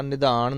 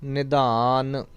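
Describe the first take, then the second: First: ਨਿਧਾਨ ending in a retroflex ਣ, the mistake; wrong pronunciation. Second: ਨਿਧਾਨ ending on a dental n; correct pronunciation. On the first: Teacher showing students the wrong retroflex ending. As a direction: show ਨਿਧਾਨ said wrongly as nidhaaṇ. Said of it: "ਇੱਥੇ ਵੀ ਨਾਣਾ ਨਹੀਂ ਲਾਉਣਾ". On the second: Teacher giving students the right ending of ਨਿਧਾਨ. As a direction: say ਨਿਧਾਨ cleanly with ਨੰਨਾ at the end. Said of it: "ਨਿਧਾਨ ਨੰਨਾ". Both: Shown as a demonstration.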